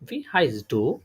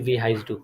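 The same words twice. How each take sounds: First: The voice rises on du like a question. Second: The voice stays flat like a normal statement.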